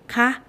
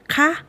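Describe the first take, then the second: First: The particle is said with its question tone. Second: The same.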